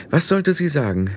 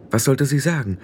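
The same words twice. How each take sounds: First: Higher-pitched, wondering repeat of the question; raised repeat question. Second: Said in the usual way. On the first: A narrator's reading. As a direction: ask it higher, searching for words. Repeated question, second take more anxious.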